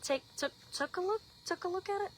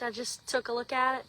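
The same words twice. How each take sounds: First: Careful higher repeat, softer; laughing at her own tongue-twist, viewers; self-correcting retry. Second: Said in the usual way. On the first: Shown as a demonstration. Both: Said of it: "I can't even talk these days".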